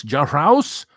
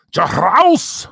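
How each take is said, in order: First: Said in the usual way. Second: Higher, louder mock disbelief; put-on shocked repeat of the name; incredulous. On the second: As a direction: act amazed at the name.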